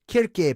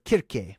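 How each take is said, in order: First: The name begins with a hard K sound. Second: The same.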